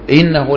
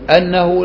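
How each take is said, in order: First: The first word begins with an 'i' vowel. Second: The first word begins with an 'a' vowel. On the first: The speaker calls it right. "لأنه يبدأ بالهمزة مكسورة" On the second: The speaker calls it wrong. "الإنسان إذا نادى ما يقول أنه لا يدخل الجنة"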